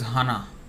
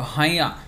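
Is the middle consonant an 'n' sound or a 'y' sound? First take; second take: n; y. First: The middle consonant is a clear 'n'. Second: The middle consonant is a nasal 'y'. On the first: The speaker calls it wrong. "they make this mistake, ... they pronounce this as Hana" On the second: The speaker calls it right. "this N is a nasal sound, and it's actually Ya"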